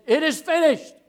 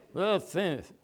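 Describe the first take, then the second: First: Loud, high, head-up declaration; strong triumphant cry. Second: Imitating a beaten, spent mumble; mock weak groan, words slurred; feeble dying voice. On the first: Acted. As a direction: cry it out valiantly, not beaten. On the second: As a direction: say it as if drooping and defeated. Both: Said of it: "He's not down here saying".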